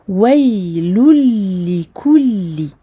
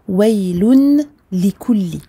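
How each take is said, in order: First: The n merges fully into the following l. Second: A clear n is heard before the l. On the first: The speaker calls it right. "Vous entendez" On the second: The speaker calls it wrong. "on ne dit pas"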